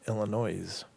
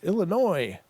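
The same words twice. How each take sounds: First: The final s sound is pronounced aloud. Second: The final s sound is left silent. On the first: This follows the spelling letter by letter. "but it's spelled Illinois" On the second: This is how the name is normally pronounced. "It's Illinois"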